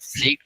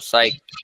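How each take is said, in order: First: The vowel sounds like 'ee'. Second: The vowel sounds like 'eye'. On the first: The speaker calls it wrong. "सीक्ड नहीं पढ़ना है इसको" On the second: The speaker calls it right.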